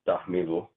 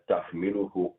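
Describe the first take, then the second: First: The word ends on a consonant, no final vowel. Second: The word ends with a 'u' vowel sound. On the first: The reader stops at this point. "I pause on a sukun" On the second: The reader carries on without stopping. "if I continue it, then I do the u on there"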